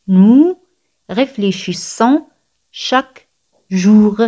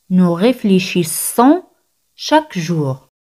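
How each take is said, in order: First: "Nous ... réfléchissons ... chaque ... jour", with clear gaps; word-by-word demonstration. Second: Said in the usual way. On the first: Shown as a demonstration. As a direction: pause after "Nous", draw out "chaque jour" slowly. Repeat broken up word by word.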